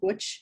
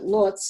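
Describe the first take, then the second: First: The name is said with Polish-style sounds. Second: The name is said with English-style sounds. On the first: This is how local people say it. "but they pronounce it Łódź" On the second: This is how English speakers say it. "We pronounce it Lodz"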